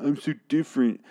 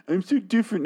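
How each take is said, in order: First: Higher, sneering parody of the singer; mocking whiny voice. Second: Much higher, squeaky mockery of the singer; extra-high mocking whine. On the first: Mocking the rapper's lyric to the band, higher and sneering. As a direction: mimic a self-pitying misfit, nasal sneer. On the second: Mocking the rapper's lyric again, far higher and sneering. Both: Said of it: "You say this in the song".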